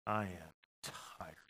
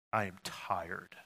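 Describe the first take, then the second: First: Wearier, softer sigh. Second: Weary sigh. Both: Shown as a demonstration. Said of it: "Anybody tired?".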